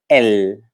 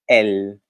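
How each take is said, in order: No difference in how they are said.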